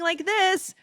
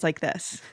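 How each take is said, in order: First: It is said in a higher, normal-pitched voice. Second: It is said in a deeper, lower-pitched voice. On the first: "instead of sounding like this" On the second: "I drop my voice an octave"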